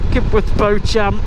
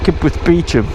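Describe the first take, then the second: First: The last word begins with a 'bo' sound. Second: The last word begins with a 'bee' sound. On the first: This is how it is said on the radio. The speaker calls it wrong. "they'll say uh" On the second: This is how it is properly said. The speaker calls it right. "the correct pronunciation is [name]"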